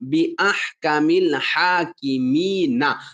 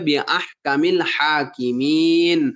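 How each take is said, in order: First: The last word ends with a short 'a' vowel. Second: The last word ends on a bare 'n' sound. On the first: The speaker calls it wrong. "নুন জবর না" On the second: The speaker calls it right. "এই নুন জবর না বাদ দিয়ে এখানে জজম পড়তে হবে"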